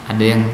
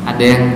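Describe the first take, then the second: The two takes are said the same way.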